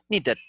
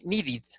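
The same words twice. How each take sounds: First: The ending vowel sounds between a and e. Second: The ending vowel sounds fully like e. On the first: The speaker calls it right. "It's like in between" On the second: The speaker calls it wrong. "and it's not completely e"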